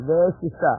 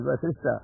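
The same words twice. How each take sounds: First: Vasishtha said as "Ve-sishta"; first syllable of Vasishtha turned into "Ve"; mispronounced Vasishtha. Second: Said in the usual way. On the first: Retold or imitated. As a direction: open Vasishtha with "Ve" in place of "Va". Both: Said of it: "Pronunciation went wrong".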